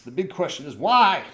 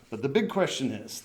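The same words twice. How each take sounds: First: Big emphatic question, louder; big booming question. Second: Said in the usual way. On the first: Shown as a demonstration. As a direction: make the question as big as you can. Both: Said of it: "That's as big as I could make it".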